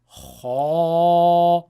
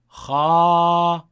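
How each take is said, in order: First: The sound is heavy, with the tongue back raised. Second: The sound is light, with the tongue back lowered. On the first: "with me raising the back of the tongue" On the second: "by not raising the tongue"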